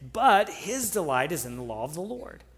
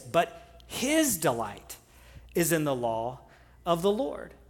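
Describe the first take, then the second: First: The word "but" carries the main stress. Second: The word "his" carries the main stress. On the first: "you would start with "but" and say" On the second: "then go to "his.""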